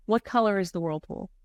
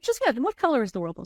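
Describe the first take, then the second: First: Said in the usual way. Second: Faster, higher and brighter repeat; repeating the question, a touch higher and quicker; insistent repeat. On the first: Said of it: "and said". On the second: Retold or imitated. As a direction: press the question again cheerfully. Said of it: "I was like".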